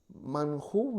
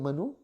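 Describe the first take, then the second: First: An h sound is heard in the middle. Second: No h sound is heard in the middle. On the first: "literalmente escrito" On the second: "pero la pronunciación manú"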